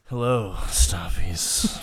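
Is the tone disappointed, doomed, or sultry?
sultry. It sounds sultry and sexy.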